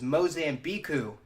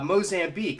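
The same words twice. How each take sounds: First: The final letters are sounded out as extra syllables. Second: The word ends in a plain k sound. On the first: The speaker calls it wrong. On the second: The speaker calls it right.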